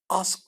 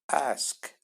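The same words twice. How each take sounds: First: The vowel is a plain open a sound. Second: The vowel is a mixed sound between a and e. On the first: The speaker calls it wrong. "Ask değil" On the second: The speaker calls it right. "A arası karışım bir ses"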